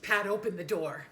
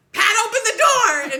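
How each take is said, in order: First: Said in the usual way. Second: Much higher and louder, a full yell. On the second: Retold or imitated. Dad yelling at his wife to open the car door, full yell. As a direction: scream it, fingers caught. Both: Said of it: "and then my dad goes".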